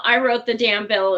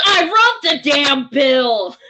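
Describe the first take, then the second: First: Said in the usual way. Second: Higher, louder, slow indignant shout; slow mock-furious shout; retold shout. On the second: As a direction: bellow it like the bill's author. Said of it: "And he goes".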